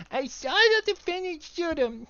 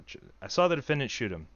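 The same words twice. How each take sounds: First: Put-on much higher, slow baby voice. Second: Said in the usual way. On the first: Shown as a demonstration. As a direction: babble it like a tiny toddler. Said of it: "What would that sound like?". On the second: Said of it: "Nope, that's not right".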